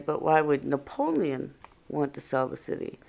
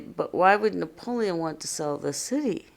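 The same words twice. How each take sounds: First: The stress is on the word Napoleon. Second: The stress is on the word city.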